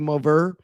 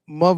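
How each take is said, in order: First: It is said in a strained, over-careful way. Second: It is said in a casual local accent. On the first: The person is trying too hard to sound professional. "tries their little hardest to keep it professional" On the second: This is how the person normally talks. "instead of saying mother on the phone"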